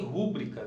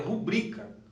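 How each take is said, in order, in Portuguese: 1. A tônica cai na primeira sílaba. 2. A tônica cai na segunda sílaba. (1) "Na verdade não existe rúbrica" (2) "Correto é rubrica"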